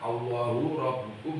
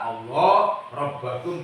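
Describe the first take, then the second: First: The words end with the vowel u. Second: The words end with the vowel a. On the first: Allah is read as the predicate of an implied 'he'. "birok salah satu dengan rofaknya" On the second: Allah is read as a substitute for the preceding word. "Kalau nasab berarti alal badali"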